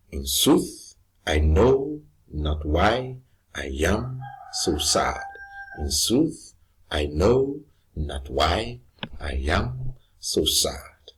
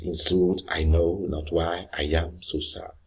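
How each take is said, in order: First: Slow, measured beat: in SOOTH, i KNOW not WHY i AM so SAD; iambic stress. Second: Said in the usual way. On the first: Shown as a demonstration. Teacher reciting a Shakespeare line as example, iambic stress. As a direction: draw out sooth, know, why, am, sad, lightly touching the words between. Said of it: "one unstressed followed by one stress". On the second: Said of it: "where he says".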